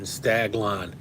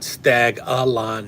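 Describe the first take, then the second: First: No extra vowel is inserted, giving two syllables. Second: An extra vowel is inserted, giving three syllables. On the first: The speaker calls it right. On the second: The speaker calls it wrong. "not Stag-a-lon"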